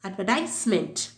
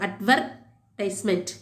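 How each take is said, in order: First: The stress is on the 'tise' syllable. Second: The stress is on the 'ver' syllable. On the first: This is the American pronunciation. "American இங்கிலீஷில்" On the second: This is the British pronunciation. "Where அந்த இடத்துல அழுத்தமாக சொல்லுவாங்க"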